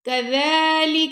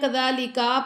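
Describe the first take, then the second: First: No sound in the word is drawn out. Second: The final vowel after the k is drawn out. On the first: The speaker calls it right. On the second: The speaker calls it wrong.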